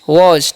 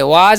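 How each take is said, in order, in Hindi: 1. स्वर गोल 'o' ध्वनि है। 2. स्वर खुला 'ah' ध्वनि है। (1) "क्या पढ़ते हैं" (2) "वाज नहीं पढ़ना है"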